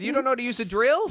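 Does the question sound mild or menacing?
mild. The question sounds fairly mild and ordinary. This is how the man actually said it. "in that tone of voice"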